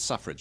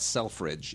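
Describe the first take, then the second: First: The first syllable sounds like 'suff'. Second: The first syllable sounds like 'self'. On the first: The speaker calls it right. "You pronounce it Suffrage" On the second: The speaker calls it wrong. "It's not Selfridge"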